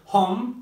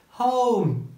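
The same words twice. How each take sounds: First: The vowel is a single steady O sound. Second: The vowel glides from O toward U. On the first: The speaker calls it wrong. "yanlış telaffuzlar duyabiliyoruz" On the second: The speaker calls it right. "O ile başlayıp U ile biten O sesi"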